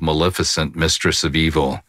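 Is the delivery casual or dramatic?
casual. It is said in a plain conversational voice. "I don't say it like that when I'm doing it"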